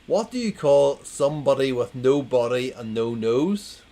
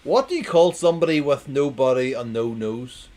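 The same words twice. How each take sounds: First: Loud, rising quiz question; second go at the riddle, loud; re-read setup. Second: Loud, bright question to the crowd; announcing the riddle loudly; loud joke setup. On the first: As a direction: ask it again loudly. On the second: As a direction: belt out the setup. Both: Shown as a demonstration. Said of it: "I'm gonna read it again".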